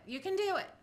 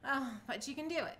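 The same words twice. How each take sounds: First: Higher, louder pep talk to herself; rally yourself, you can do it; upbeat self-encouragement; cheering herself on. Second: Said in the usual way. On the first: Real, not acted. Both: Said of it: "self-encouragement".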